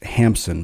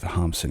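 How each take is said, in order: First: The name is said the American way. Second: The name is said the Norwegian way. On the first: "In the U S, I've also heard his name pronounced Hampson" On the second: "the pronunciation that Norwegians would use"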